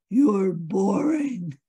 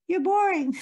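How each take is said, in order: First: It is said in a deep, booming voice. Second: It is said in a tiny, squeaky voice.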